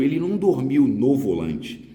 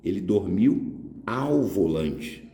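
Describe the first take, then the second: First: Ele não dormiu no volante, said a touch louder, with a mild push on não; mock wrong form. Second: Ele dormiu AO volante, slow with a clear ao; slow correct form. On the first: Teacher correcting a common mistake, a touch louder. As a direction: tick off the wrong usage a bit louder. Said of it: "Porque o caminhoneiro". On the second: Teacher spelling out the correct form slowly. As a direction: give the right version slowly, stressing ao. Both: Shown as a demonstration.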